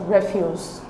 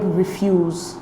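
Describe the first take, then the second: First: REFuse, the noun, stressed on the first syllable. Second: ReFUSE, the verb, stressed on the second syllable. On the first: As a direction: say refuse as a noun, REF-yooz, weight up front. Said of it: "Refuse is a noun". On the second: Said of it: "different from the verb refuse". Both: Shown as a demonstration.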